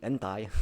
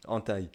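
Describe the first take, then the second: First: Southern French "entaille", sounding the n after an open a; southern French "an-taille"; southern French accent. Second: Said in the usual way. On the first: Acted. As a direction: say "entaille" like someone from the south of France. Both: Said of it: "c'est plus l'accent du sud".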